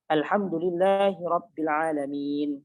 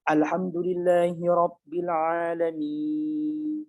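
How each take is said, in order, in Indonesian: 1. Vokal panjang terakhir ditahan agak panjang. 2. Vokal panjang terakhir ditahan sangat panjang. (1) "dia baca panjang saja" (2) "panjang seperti itu nggak wajib"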